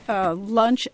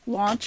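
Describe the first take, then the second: First: The vowel is the ordinary 'uh' sound. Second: The vowel is pulled back toward 'aw'.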